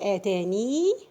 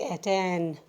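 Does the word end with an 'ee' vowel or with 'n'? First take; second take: ee vowel; n. First: The word ends with a long 'ee' vowel. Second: The word ends on the 'n' sound.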